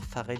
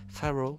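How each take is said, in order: First: The name is said with a French pronunciation. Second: The name is said with an English pronunciation. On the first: This is how it would normally be said in French. "au lieu de dire Pharrell" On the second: This is how the Canadian French version says it. "ils disent Pharrell, euh, un peu à l'anglaise, enfin en anglais tout simplement"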